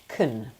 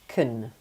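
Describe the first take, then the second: First: The vowel is a reduced, weak schwa. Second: The same.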